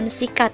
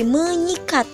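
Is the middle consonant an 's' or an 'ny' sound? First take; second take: s; ny. First: The middle consonant is an s sound. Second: The middle consonant is an ny sound. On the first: The speaker calls it wrong. "bukan mensikat" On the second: The speaker calls it right. "jadi menyikat"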